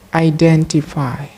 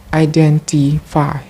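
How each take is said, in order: Both takes have the same delivery.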